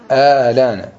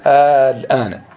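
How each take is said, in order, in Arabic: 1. تُحذف الهمزة الثانية وتنتقل الحركة. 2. الهمزة الثانية تُنطق بوضوح. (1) "نقلها إلى اللام" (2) "أصلا"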